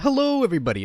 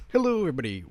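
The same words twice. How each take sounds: First: Much higher, louder hello; big showy announcer hello; reworked intro inflection. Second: Bright announcer hello; trying out a cheery intro line; intro greeting, first try. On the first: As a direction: pitch the greeting way up like a host. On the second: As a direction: rehearse the channel intro. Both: Shown as a demonstration. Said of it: "maybe the problem I have with it now is my inflection".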